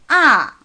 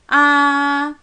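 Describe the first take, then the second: First: The pitch falls sharply and briefly. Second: The pitch stays high and level. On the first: "조금 강하고 짧게 떨어지는 거예요" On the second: "일성"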